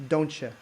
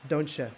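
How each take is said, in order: The two takes are said the same way.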